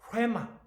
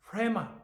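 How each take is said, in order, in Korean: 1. 이 단어는 숨소리가 섞인 h 소리로 시작합니다. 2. 이 단어는 숨소리가 섞인 h 소리로 시작합니다.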